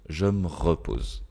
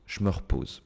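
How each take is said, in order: First: Je is kept and the vowel of me dropped. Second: The vowels of je and re are dropped. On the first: "garder le je... je choisis de supprimer le e du me" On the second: "on peut supprimer le E... on peut supprimer le re"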